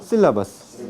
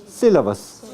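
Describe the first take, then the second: No difference in how they are said.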